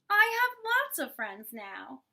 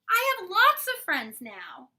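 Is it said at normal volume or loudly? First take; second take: normal; loudly. First: It is said at normal volume. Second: It is said very loudly.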